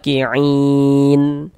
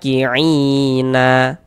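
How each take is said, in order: First: The word ends on a silent n sound. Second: The word ends with an added a vowel. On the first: The speaker calls it right. "kalau berhenti di huruf nun kita baca ki'in" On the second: The speaker calls it wrong. "Jangan dibaca ki'ina"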